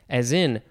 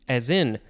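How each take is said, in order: Both takes have the same delivery.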